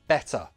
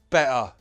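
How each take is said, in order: First: The T is a clear, released T sound. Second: The T is replaced by a glottal stop. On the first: "First, true T" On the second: "Now the glottal T"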